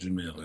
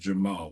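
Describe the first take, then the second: First: The second syllable has an 'ee' vowel. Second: The second syllable has an 'ah' vowel. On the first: The speaker calls it wrong. "It is not Jamil" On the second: The speaker calls it right. "It is Jamal"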